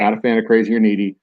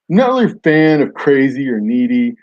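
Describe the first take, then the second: First: It is read in his normal voice. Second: It is read in a put-on dude-bro voice.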